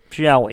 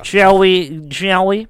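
First: Said in the usual way. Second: Higher and louder, grandly inviting; theatrical invitation. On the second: Pretend. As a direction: sweep them in with a flourish. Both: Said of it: "repeated playful invitation".

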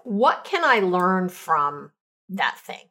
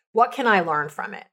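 First: Slow thoughtful question. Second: Said in the usual way. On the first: Shown as a demonstration. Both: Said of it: "here's the questions I ask".

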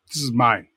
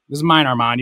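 First: Said in the usual way. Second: Mine stressed, a bit louder, playful; teasing claim on mine. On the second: Acted. Teasing Armand that the story is mine, stressing mine. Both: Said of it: "You can tell your story later".

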